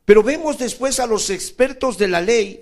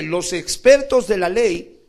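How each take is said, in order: First: Said in the usual way. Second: "los expertos de la ley" said slowly, each word weighted; slow down and lean on "los expertos de la ley"; preacher repeats "los expertos de la ley" slowly to make them listen; slowed emphasis. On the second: Shown as a demonstration. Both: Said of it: "escúchame".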